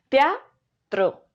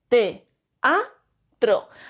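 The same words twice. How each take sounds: First: The word is said smoothly in one piece. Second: The word is broken into separate syllables. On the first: The speaker calls it wrong. "no digo teatro" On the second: The speaker calls it right. "si quiero separar la palabra teatro en sílabas"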